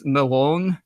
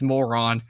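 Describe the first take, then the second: First: "Moron" said as a Hebrew name, second syllable stressed; "Moron" with Hebrew-style end stress; Hebrew pronunciation. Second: "moron" as the ordinary English insult, MOR-on; "moron" with English vowels, first syllable stressed; English pronunciation. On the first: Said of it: "his name in Hebrew is". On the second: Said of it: "in English, it's moron". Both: Shown as a demonstration.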